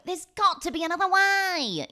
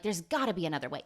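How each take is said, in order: First: Melodramatic hero plea. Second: Said in the usual way. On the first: Retold or imitated. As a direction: belt it like a movie climax. Dramatic repeat of the same line. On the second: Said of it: "And they're like".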